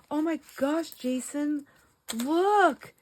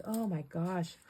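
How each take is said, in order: First: High gasping excited call to husband. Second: Said in the usual way. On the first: Retold or imitated. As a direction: gasp and call him over, thrilled. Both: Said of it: "I'll be like".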